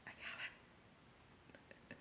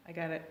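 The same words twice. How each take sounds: First: Very slow, barely audible whisper. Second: Softer, trailing down; hushed realization. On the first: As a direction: let it fade into a drawn-out whisper. Repeats realization as a whisper. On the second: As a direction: say it softly, fading away. Repeats realization, fading away. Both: Acted.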